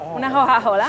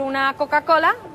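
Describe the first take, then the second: First: The c sounds are breathy h sounds. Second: The c sounds are hard k sounds. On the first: "Con la chia spirata" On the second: "en vez de decir una Coca-Cola"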